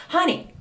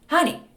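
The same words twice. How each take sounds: The two takes are said the same way.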